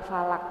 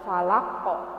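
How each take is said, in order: First: The word ends on the bare consonant. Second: The word ends with a vowel after the consonant. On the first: The speaker calls it wrong. "bukan falak" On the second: The speaker calls it right. "tapi falako"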